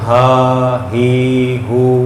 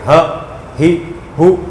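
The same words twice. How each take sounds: First: The syllables are stretched out long. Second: The syllables are cut short with a jerk. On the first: "इसको लंबा भी नहीं करना, हा ही हू ऐसे नहीं पढ़ना" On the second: "इतनी तेज़ भी ना पढ़ें कि हा ही हू ये झटका हो गया"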